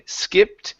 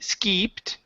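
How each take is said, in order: First: The vowel is a short i sound. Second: The vowel is a long ee sound. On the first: The speaker calls it right. "use a short I" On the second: The speaker calls it wrong. "instead of saying ski, skeeped"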